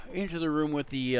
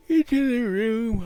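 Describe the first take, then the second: First: Said in the usual way. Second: Sudden loud high "into the room"; booming "into the room"; loud shout. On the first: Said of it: "why you do that?". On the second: Shown as a demonstration. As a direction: blurt "into" loud and high, then check yourself.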